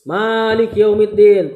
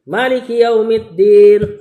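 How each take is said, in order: First: The first vowel of Malik is held long. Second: The first vowel of Malik is said short. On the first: God is the master of the Day of Judgment. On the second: God is the king of the Day of Judgment.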